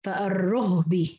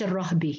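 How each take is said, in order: First: فالرهب drawn out as far-ruhbi; rounded u on ra. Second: الرهب as ar-rahbi, the contrasting form; open a on ra. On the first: Teacher showing Shu'ba's reading, u on the ra. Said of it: "قرأ بضم الراء". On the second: Teacher contrasting the form it is not, open ra. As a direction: say الرهب with a after the ra. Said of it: "مش الرهب". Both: Shown as a demonstration.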